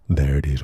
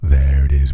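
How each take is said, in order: First: The low frequencies are cut, sounding thinner. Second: The low frequencies are kept, sounding fuller. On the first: "with the bass cut" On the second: "without the bass cut"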